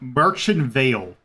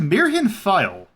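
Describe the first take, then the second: First: The name is read with English spelling sounds. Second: The name is read with German sounds. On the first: The speaker calls it wrong. "That is not how you pronounce that" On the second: The speaker calls it right. "this is, in fact, a German name"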